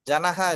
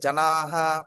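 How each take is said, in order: First: The second vowel is short. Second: The second vowel is long. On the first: The speaker calls it wrong. "ஜனஹா இல்ல" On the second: The speaker calls it right. "நெடில் இருந்ததுனால ஜனாஹா அப்படி வரணும்"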